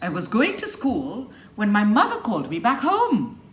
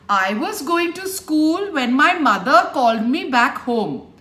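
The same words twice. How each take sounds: First: Only key words are stressed; small words are shrunk. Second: Every word is stressed equally and clearly. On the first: The speaker calls it right. "So you shrink it" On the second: The speaker calls it wrong. "That's stressing every word, and it is very tiring on the ears"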